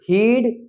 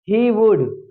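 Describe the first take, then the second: First: It is said as one contracted syllable. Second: It is said as two full words.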